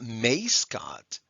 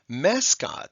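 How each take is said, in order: First: The first vowel is a long A sound. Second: The first vowel is a short A sound. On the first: The speaker calls it wrong. "It's not mascot" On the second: The speaker calls it right. "We have a short A followed by an S"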